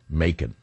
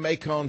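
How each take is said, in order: First: The name is said with an American pronunciation. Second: The name is said with a French-style pronunciation. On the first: The speaker calls it right. "trip up guys like me from the north. Macon" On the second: The speaker calls it wrong. "I said it wrong. I can't say Macon. It's because I speak too much French"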